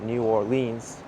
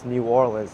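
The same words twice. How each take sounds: First: The city name is said the outsider way. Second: The city name is said the local way. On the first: This is how non-residents say it. The speaker calls it wrong. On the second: This is how residents say it. The speaker calls it right. "The locals call this place"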